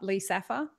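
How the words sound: It is said in an Australian accent. "which is how we say it in Australia"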